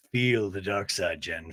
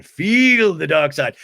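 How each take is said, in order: First: Low, slow, ominous coaxing; dark-side villain. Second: Loud, very slow villain command; forceful dark-side villain. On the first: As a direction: lure Jen in with a deep, slow voice. Low put-on villain line to Jen. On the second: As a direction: boom it out, stretching each word. Repeats villain line much louder. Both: Acted.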